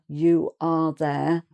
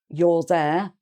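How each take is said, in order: First: You are is said as two full words. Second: You are is contracted to one syllable. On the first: "instead of" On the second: "it's quicker and easier to say"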